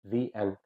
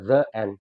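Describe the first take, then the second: First: The word 'the' has a long 'ee' vowel. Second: The word 'the' has a short 'uh' vowel. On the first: The speaker calls it right. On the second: The speaker calls it wrong.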